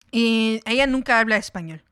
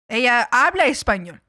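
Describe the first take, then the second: First: Said in the usual way. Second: Emphasis on "habla", then easing off; stress on habla. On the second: Real, not acted. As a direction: lean on "habla" to concede the point. Contrast: able to speak, but refuses.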